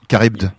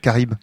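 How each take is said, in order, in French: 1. Le nom se dit avec un son D clair. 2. Le nom se dit sans aucun son D. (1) "Il y a un D qui n'est pas muet" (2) "j'ai toujours prononcé ça Caribe"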